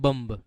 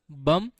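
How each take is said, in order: First: बम्ब with a hard b at the end; बम्ब ending in a sounded b; wrong bomb. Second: बम with no final b; बम said short, ending on m; right bomb. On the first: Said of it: "ये बम्ब नहीं होता". (बम्ब में आखिरी b बोलकर) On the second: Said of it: "Hindi में इसको बम बोलते हैं". (बम, बिना b के) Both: Shown as a demonstration.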